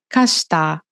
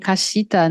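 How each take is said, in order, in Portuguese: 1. A sílaba 'shi' desaparece quase por completo. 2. A sílaba 'shi' é pronunciada de forma completa e clara. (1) "o "shi" ele vai sumindo" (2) "nem "kashita""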